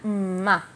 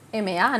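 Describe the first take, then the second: First: It is said as one blended syllable. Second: It is said as two separate letter names. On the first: This is how the combination really sounds. The speaker calls it right. "así no es como suena, suena ma" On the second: This joins the names of the letters. The speaker calls it wrong. "M más A es M A"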